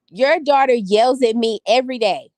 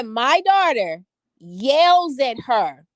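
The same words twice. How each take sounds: First: Said in the usual way. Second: "daughter" leaned on, whole line drawn out slowly; slow emphatic quote. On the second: Retold or imitated. Mother repeating the teacher's claim for her viewers, slow and emphatic. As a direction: spell out "My daughter yells at her" word by word. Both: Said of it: "She said".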